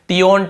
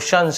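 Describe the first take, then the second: First: The ending is two syllables, tee-on. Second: The ending is one syllable, shun. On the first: The speaker calls it wrong. "टियोन नहीं पढ़ना है आपको" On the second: The speaker calls it right. "शन पढ़ना होता है"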